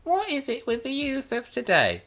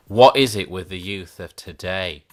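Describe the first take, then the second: First: Much higher, hammed-up indignant squeal; mock outrage. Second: Louder, exasperated mock rant; mock exasperation. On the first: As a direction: pitch it way up in mock disbelief. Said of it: "But seriously". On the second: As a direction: belt it out in fake despair. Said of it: "But no, seriously".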